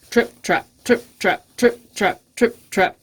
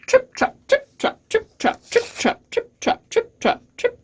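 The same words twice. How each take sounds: First: Fuller-voiced, measured trip-trap; big hoof steps. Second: Crisp, staccato, barely voiced trip-trop; light hoof steps. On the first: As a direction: step out the words as a big goat. Big goat's heavier hooves. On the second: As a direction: tap out the words like tiny hooves. Little goat's hooves on the bridge.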